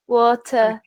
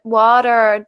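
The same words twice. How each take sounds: First: British accent, ending in a weak schwa, no r. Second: American accent, with a clear final r sound. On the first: "British English, we kind of say it with a schwa sound" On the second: "In American English it would be like"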